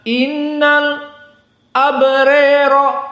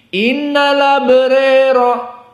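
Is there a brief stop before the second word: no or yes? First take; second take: yes; no. First: A brief stop before 'abrara', with a strongly leaned 'ra' vowel. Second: The words run together, with a slightly raised 'ra' vowel. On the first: "Hamzah ada as-saqt dengan al-imalah" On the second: "Ada naql untuk wars dan ada at-taqlil"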